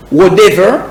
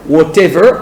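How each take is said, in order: First: American "whatever" with the T softened to a D; American English flapped T in "whatever"; American accent. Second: British "whatever" with a crisp T; British English pronunciation of "whatever"; British accent. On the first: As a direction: say "whatever" the American way, like "wha-dever". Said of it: "accent américain". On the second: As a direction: say "whatever" the British way, T fully sounded. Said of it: "accent britannique". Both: Shown as a demonstration.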